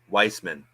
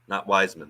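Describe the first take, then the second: First: The name is said as Weissman. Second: The name is said as Wiseman. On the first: The speaker calls it right. "it was apparently, actually, subtly, uh, Weissman" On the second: The speaker calls it wrong. "I called him James Wiseman"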